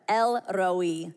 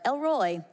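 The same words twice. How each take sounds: First: The R is rolled. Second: The R is plain, not rolled. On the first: The speaker calls it right. "If you can roll your R's, really go for it here" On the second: The speaker calls it wrong. "I said this wrong for the last million years. I thought it was like"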